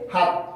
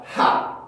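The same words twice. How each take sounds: First: Said in the usual way. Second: 하 shot out short and strong; stressed ha. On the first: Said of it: "이게 아니라 하". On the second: Shown as a demonstration. Teacher contrasts it with the flat 하. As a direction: fire 하 out in one short burst. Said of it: "최대한 짧고 강하게 하".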